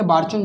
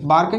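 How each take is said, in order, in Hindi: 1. बीच का व्यंजन ch ध्वनि है। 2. बीच का व्यंजन एक कड़ी k ध्वनि है। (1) "बार्कन या बार्चन, जो भी आप बोलना चाहें" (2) "बार्कन या बार्चन, जो भी आप बोलना चाहें"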